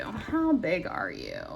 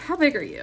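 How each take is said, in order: First: Slower, softer, drawn-out question; slow repeated question. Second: Said in the usual way. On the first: Real, not acted. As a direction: stretch each word, gently puzzling.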